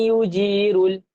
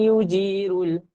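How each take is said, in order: The two takes are said the same way.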